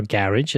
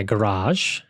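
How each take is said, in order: First: Garage with stress on the first syllable; UK pronunciation. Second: Garage with stress on the second syllable; American pronunciation. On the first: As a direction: say garage as "GARR-idge". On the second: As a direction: say garage as "guh-RAHZH". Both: Shown as a demonstration. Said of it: "as we say in the U K".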